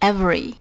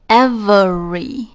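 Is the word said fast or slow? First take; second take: fast; slow. First: The word is said quickly. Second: The word is said slowly and carefully.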